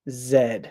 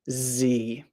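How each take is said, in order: First: The letter is named the British way. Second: The letter is named the American way. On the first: "in the U K, they call it Z" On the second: "in the United States, we say Z"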